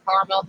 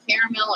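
First: "caramel" shortened to two syllables, CAR-mul; two-syllable pronunciation. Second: "caramel" said in three syllables, CARE-uh-mel; three-syllable pronunciation. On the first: Offering viewers the other way to say it, "caramel" as CAR-mel. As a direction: say "caramel" as CAR-mel, dropping the middle vowel. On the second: Offering viewers one way to say it, "caramel" as CARE-uh-mel. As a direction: say "caramel" with the middle vowel kept. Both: Shown as a demonstration. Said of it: "however you wanna say it".

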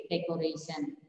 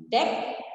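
First: Said in the usual way. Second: "Decoration" in four separate pieces: dec, o, ra, tion; syllable by syllable. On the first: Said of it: "when we split it". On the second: Shown as a demonstration. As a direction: leave long gaps between the syllables of "Decoration". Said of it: "this is the way you split it".

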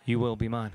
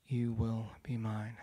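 First: Louder and laughing through it; breaking into a laugh on the vow; laughing repeat. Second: Low, slow, intense whisper-like vow; claiming her from the photo, slow and low; solemn vow. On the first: Retelling the vow to the crowd, now laughing. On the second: Speaker vows to the girl in the picture, low and slow. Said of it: "and I say this". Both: Retold or imitated.

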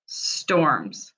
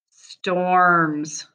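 First: Said in the usual way. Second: "Storms" stretched slowly, sound by sound. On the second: Shown as a demonstration. Teacher to pupils: "Storms" sounded out slowly. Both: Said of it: "I'm gonna sound them out".

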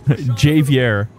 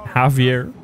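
First: Javier with a hard English J, "JAY-vee-air"; Americanized pronunciation. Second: Said in the usual way. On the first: Shown as a demonstration. Player saying Javier like a real American, hard J as JAY-vee-air. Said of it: "Like a real American would". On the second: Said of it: "That's how I'm gonna say it".

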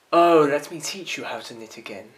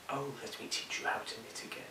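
First: Loud declaiming. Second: Fast breathless whisper of the line. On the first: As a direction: proclaim it loudly like an orator. Monologue from the top. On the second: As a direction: rush it under your breath. Rehearsing line under breath. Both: Acted.

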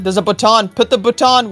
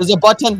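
First: BUTTON turned into "baton"; playful mispronunciation. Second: Said in the usual way. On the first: Pretend. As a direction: stress the second syllable, "baton".

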